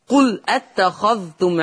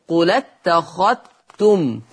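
First: Said in the usual way. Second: قل اتخذتم run together as "qulattakhattum", ذ merged into ت; merged dhal. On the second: Shown as a demonstration. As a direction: link قل اتخذتم and double the t for the ذ. (قل اتخذتم بالنقل والإدغام) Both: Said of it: "يقرأ ورش بالإدغام".

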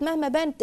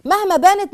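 First: Said in the usual way. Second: High, loud first take; loud emphasis. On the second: Shown as a demonstration. Lecturer stressing the point to her audience, loudly. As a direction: hit it hard and high.

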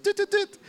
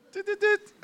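First: High clicky tut tut tut again; playful mimicked tutting; mock tutting noise. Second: High clicky tut tut tut; playful mimicked tutting; mock tutting noise. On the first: Repeats the same tutting noise. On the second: Imitating a sound effect. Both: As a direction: click out a little tutting sound.

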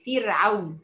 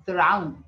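First: فرعون with the first letter said "fi", a clear kasra; فرعون said "firʕaun", the correct way; correct pronunciation. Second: فرعون with the first letter said "fe", an open a instead of i; فرعون said "feraun" as students get it wrong; wrong pronunciation. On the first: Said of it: "الفاء مكسورة". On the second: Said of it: "في ناس بتقول فرعون". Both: Shown as a demonstration.

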